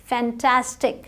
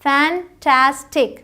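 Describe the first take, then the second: First: Said in the usual way. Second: fantastic slowly in three pieces, fan-tas-tic; broken into syllables. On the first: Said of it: "तोड़ के भी पढ़ सकते हैं". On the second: Shown as a demonstration. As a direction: pause between the syllables of fantastic. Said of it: "छोटे-छोटे हिस्सों में तोड़ के". (फैंटास्टिक को हिस्सों में तोड़कर)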